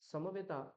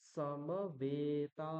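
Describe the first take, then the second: First: The last two vowels are short. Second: The last two vowels are held long. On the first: The speaker calls it wrong. "এইভাবে না বলে" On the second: The speaker calls it right. "দ্বিতীয় দুটো উচ্চারণ করতে গেলে আমাকে তার থেকে দ্বিগুণ সময় নিতে হবে"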